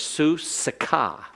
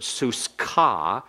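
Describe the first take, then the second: First: A short vowel is heard between s and k. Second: No vowel is heard between s and k. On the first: The speaker calls it right. "It's su-sika. ... and so it's vocal" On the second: The speaker calls it wrong. "it's not a silent schwa"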